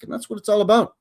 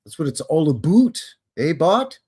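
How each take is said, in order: First: Said in the usual way. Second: Put-on playful Canadian accent, "about" said like "aboot"; mock Canadian accent. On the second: Jokey Canadian repeat of the phrase.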